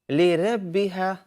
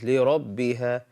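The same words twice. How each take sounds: First: The R sound is thin and light. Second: The R sound is heavy and full-mouthed. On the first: The speaker calls it wrong. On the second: The speaker calls it right. "the word is"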